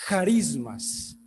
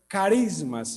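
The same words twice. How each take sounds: First: It begins with a guttural, throaty sound. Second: It begins with a hard k sound. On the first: The speaker calls it right. "sino carismas" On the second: The speaker calls it wrong. "no es carismas"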